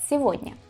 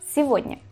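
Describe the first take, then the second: First: The middle consonant is a soft V sound. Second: The middle consonant is a soft V sound.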